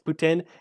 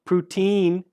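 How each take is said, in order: First: The last syllable sounds like 'tin'. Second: The last syllable sounds like 'teen'. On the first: The speaker calls it right. "it's Putin. It came from Quebec, and that's how you pronounce it" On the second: The speaker calls it wrong. "Everybody that pronounce it poutine is wrong"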